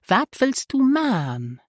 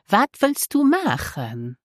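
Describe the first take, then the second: First: The last word is shortened to a single syllable, man. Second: The last word is said in full, as machen.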